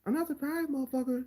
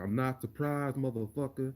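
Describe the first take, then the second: First: Much higher, squeaky take with no swag; high mocking Pena. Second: Rhythmic Nate Diaz delivery with swagger. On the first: Contrasting Pena's take with Nate's, in a much higher voice. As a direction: squeak it out with no attitude. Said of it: "Didn't come out right". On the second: Retold or imitated. Imitating Nate Diaz's line with rhythm and swag. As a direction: say it with rhythm and attitude. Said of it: "He said it with rhythm".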